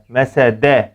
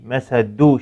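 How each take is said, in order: First: The word ends in a full e vowel. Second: The word ends in a full u vowel. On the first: "şekline benzetmeden" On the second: "şekline benzetmeden"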